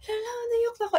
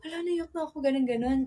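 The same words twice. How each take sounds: First: Much higher, half-laughing "Hala, naiyak na ako"; squeaky laughing cry. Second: Said in the usual way. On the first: Retold or imitated. Crying and laughing at once in front of friends, squeaky high. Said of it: "pero nakakatawa kasi". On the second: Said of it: "sabi ko".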